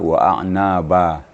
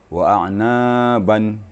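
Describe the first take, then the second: First: The phrase ends with a long vowel. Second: The phrase ends with an n sound.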